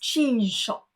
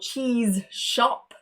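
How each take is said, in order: First: The z and sh merge into one zh sound. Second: A separate z and sh sound are heard. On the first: "becomes cheese shop, A little bit easier to say" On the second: "if it's a Z followed by the sh sound"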